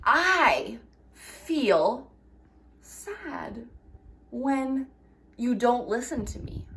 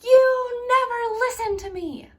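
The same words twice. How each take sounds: First: Calm, respectful I statement; calm I message. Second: High, whiny accusing voice; petulant accusing tone, pitched high; blaming whine. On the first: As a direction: say it gently and honestly. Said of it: "you can say". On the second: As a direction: whine it at them like a hurt kid. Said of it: "instead of saying". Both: Shown as a demonstration.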